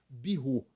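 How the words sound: The word is said with a French pronunciation. The speaker calls it right. "A pronúncia correta no francês é"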